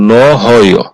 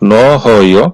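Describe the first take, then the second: Both takes have the same delivery.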